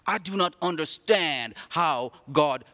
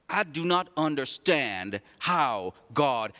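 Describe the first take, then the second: No difference in how they are said.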